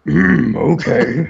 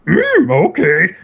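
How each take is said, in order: First: Dragon voice. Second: High, slow croaky Yoda try. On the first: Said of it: "take it down two octaves". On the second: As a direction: start from a Yoda impression. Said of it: "do your best Yoda impression". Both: Retold or imitated.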